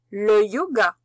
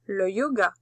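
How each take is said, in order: First: "le yoga" called out loud and clearly to dictate it; dictation voice. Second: Said in the usual way. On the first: Shown as a demonstration. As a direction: announce "le yoga" loudly for the class to write. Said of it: "Le premier mot". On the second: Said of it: "Mais en pause".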